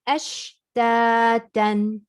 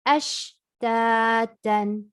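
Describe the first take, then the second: Both takes have the same delivery.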